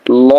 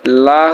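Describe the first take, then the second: First: "ল" with a dark, rounded o-like vowel; full-mouthed, rounded "ল"; heavy lam. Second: "লা" with an open a vowel; thin, unrounded "লা"; light lam. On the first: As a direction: say "ল" as a heavy "law". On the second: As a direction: say "লা" as a light "laa". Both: Shown as a demonstration. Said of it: "ল না হয়ে লা হচ্ছে".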